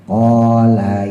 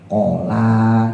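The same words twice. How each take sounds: First: The first syllable is long, the second short. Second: The first syllable is short, the second long. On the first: The speaker calls it right. "Jadi koknya yang panjang, lanya pendek" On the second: The speaker calls it wrong. "koknya jadi pendek, kelanya jadi panjang"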